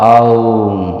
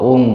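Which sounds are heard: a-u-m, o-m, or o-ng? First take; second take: a-u-m; o-ng. First: An a-u glide ends in an m sound. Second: A single o vowel ends in an ng sound. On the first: The speaker calls it right. "সঠিক উচ্চারণটা হবে আউম" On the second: The speaker calls it wrong. "আমরা অনেকে এটাকে ভুল উচ্চারণ করি"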